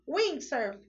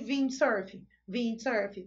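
First: The word begins with a W sound. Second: The word begins with a V sound. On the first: The speaker calls it right. "Ele tá com som de windsurf, ok? E aí tá com som de U" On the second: The speaker calls it wrong. "ele não tá com som de windsurf"

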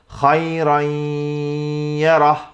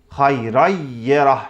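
First: The doubled y is said with nasal sound. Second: The doubled y is said plainly, without nasal sound. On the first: The speaker calls it right. "genizden de ses getirerek şöyle söylüyorum" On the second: The speaker calls it wrong. "Eğer gunnesiz yaparsam"

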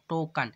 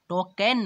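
First: The second syllable has a reduced, 'o'-like vowel. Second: The second syllable has a full 'e' vowel. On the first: The speaker calls it right. "क में ओ का उच्चारण है" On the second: The speaker calls it wrong. "टोकन नहीं"

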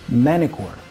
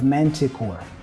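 First: The T is dropped after the N. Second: The T is clearly pronounced after the N. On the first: "for us to drop the T and pronounce the N before" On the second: "instead of"

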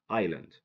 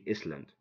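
First: The S is silent in the word. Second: The S is pronounced in the word. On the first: The speaker calls it right. "S is silent because it comes after I" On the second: The speaker calls it wrong. "Don't say Island"

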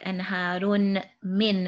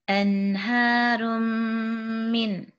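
First: The n is said separately before the m. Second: The n merges into a long held m. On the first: The speaker calls it wrong. "You're not actually pronouncing the tanween like anharun min, as if they're two separate sounds" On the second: The speaker calls it right. "it's all going to be one meme that we're going to hold for two counts"

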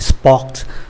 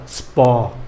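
First: The final t sound is pronounced. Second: The final t sound is silent. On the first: The speaker calls it wrong. "Nhiều người vẫn quen cái phát âm của tiếng Anh sport" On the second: The speaker calls it right. "Chữ T không có đọc ạ"

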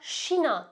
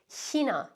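First: The word begins with an sh sound. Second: The word begins with a soft ich-sound. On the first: This is a regional pronunciation. "ya da Şina şeklinde de duyabilirsiniz" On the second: This is the standard pronunciation. "yüksek Almanca'da en doğru telaffuzu China"

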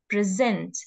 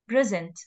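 First: The stress is on the second syllable. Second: The stress is on the first syllable. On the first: It is a verb: to show or give. "when it comes as a verb, the stress will be on the second syllable" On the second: It is a noun: a gift. "when the stress is on the first letter, so it is a noun and it is pronounced as present"

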